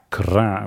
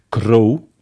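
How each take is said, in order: First: The word ends in an 'a' vowel. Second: The word ends in an 'o' vowel. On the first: "dat is het woord kra" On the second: "mag je het misschien dat als een o-klank opvatten"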